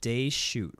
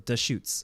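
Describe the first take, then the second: First: The name ends without an S sound. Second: The name ends with an S sound. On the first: The speaker calls it wrong. "I was calling it day shoot" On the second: The speaker calls it right. "you do pronounce the S at the end"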